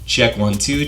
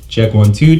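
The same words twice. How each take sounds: First: The voice sounds bright and tinny, with strong treble. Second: The voice sounds boomy, with heavy bass. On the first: "you hear a lot more presence in my voice, and it's almost like a tinny sound" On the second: "you're hearing a lot more bass"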